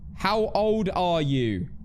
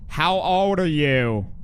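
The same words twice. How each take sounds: First: It is said in a British accent. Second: It is said in an American accent.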